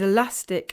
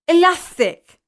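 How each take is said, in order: First: The s sounds as a clear s. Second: The s sounds as a lisped th.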